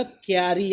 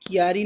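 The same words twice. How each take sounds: First: क्यारी with k joined to y, kyaa-ree; half k. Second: क्यारी split as ki-yaa-ree; wrong pronunciation. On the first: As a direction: say क्यारी as two syllables. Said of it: "आधा का". (क्यारी में आधा "क" बोलें) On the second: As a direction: put an "i" after the k in क्यारी. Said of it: "क्यारी नहीं होता". (गलत उच्चारण, क्यारी को "कियारी" बोलें) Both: Shown as a demonstration.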